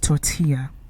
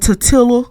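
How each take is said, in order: First: The word is pronounced in the standard way. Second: The word is pronounced in a mangled, mocking way. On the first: The speaker calls it right. "when it's a tortilla" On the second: The speaker calls it wrong. "or a tortilla"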